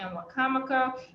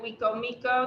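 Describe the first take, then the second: First: The name is said as one word. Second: The name is split into two parts. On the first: The speaker is local to the area. The speaker calls it right. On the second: The speaker is not from the area. The speaker calls it wrong.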